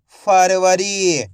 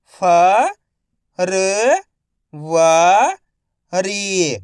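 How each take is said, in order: First: Said in the usual way. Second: February drawn out slowly, फ-र-व-री; slow syllable by syllable. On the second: Shown as a demonstration. (धीरे-धीरे अक्षर-अक्षर बोलें)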